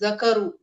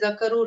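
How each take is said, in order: First: The k sound is held long and doubled. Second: The k sound is short and single. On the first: The speaker calls it right. "there's a shadda over there" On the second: The speaker calls it wrong. "Don't say zakaru"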